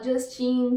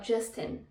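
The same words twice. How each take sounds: First: The name is said with Brazilian Portuguese sounds. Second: The name is said with an English pronunciation. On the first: It flows more naturally in a Portuguese sentence. "nesses sons brasileiros que ficam mais natural com a fala" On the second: It is the correct pronunciation but sounds odd in Portuguese. "fica muito estranho falar Justin"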